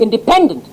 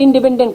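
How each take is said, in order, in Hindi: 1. बीच वाले अक्षर पर तेज़ ज़ोर है। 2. कोई भी अक्षर खास ज़ोर वाला नहीं है। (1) "उसमें जोर पी पर देते हैं, बीच वाली पर" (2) "हम आप इंडिपेंडेंट इंडिपेंडेंट कहते हैं"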